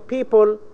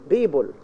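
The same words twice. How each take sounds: First: The word begins with a voiceless p sound. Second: The word begins with a voiced b sound. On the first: The speaker calls it right. "instead of saying people" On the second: The speaker calls it wrong. "you find your students say people, which is completely wrong"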